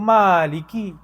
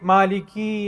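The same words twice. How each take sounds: First: The final syllable is short. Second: The final syllable is drawn out long. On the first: The speaker calls it right. "Dia maliki" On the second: The speaker calls it wrong. "Kalau kita panjangkan sikit, ... salah lagi. Dah terpanjangkan pada ki pula"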